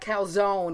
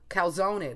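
First: The final vowel is dropped. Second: The final vowel is pronounced. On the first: This is the New Jersey Italian pronunciation. "But they always do that calzone ... Which is totally New Jersey" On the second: This is the standard Italian pronunciation. "You're supposed to pronounce the E"

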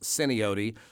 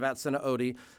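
First: The name begins directly with an 's' sound. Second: The name begins with an extra 'at' syllable. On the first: The speaker calls it right. "the locals will say it's pronounced Sinaote" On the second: The speaker calls it wrong. "I'm saying it incorrectly"

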